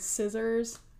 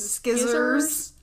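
First: The word begins with a plain s sound. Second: The word begins with an sk sound. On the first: "instead of saying scissors" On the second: "he says skizzers"

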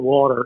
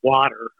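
First: Water is said with a Philadelphia accent. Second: Water is said with a standard American pronunciation. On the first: "I don't have much of a Philly accent, but I do say water" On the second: "instead of water"

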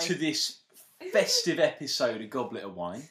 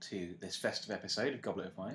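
First: It is said in a Cockney accent. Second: It is said in the speaker's normal accent. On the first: It is an informal goodbye. "Why have you gone bit Cockney?" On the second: It is a formal goodbye. "before I was just doing my voice"

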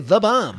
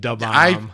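First: The first word begins with a th sound. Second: The first word begins with a d sound. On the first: The speaker calls it wrong. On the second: The speaker calls it right. "Da Bomb is what I remember saying"

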